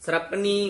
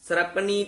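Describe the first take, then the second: The two takes are said the same way.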